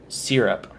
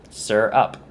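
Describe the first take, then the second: First: "syrup" said SEER-up; first vowel of "syrup" as in "seer"; Southern SEER-up pronunciation. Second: "syrup" said SUR-up, drawn out; first vowel of "syrup" as in "sir"; SUR-up pronunciation. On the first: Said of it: "A lot of people in the South". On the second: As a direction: say "syrup" as SIR-up, rising at the end. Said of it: "pronouncing it correctly, just". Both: Shown as a demonstration.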